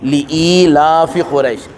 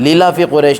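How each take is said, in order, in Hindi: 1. li अलग से बोला जाता है, फिर ila हमज़ा की आवाज़ के साथ। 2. शुरू का li और ila मिलकर lila बन जाते हैं। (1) "लाम अलग पढ़ना है" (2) "लीला फ़ी क़ुरैश नहीं"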